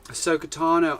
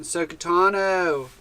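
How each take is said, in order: First: Put-on laid-back surfer accent on Sokotano. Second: Slow, drawn-out surfer accent on Sokotano. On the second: Shown as a demonstration. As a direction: stretch Sokotano out like a chill surfer dude. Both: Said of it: "like, a surfer accent".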